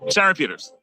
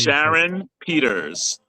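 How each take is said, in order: First: The name is said very quickly. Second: The name is said very slowly.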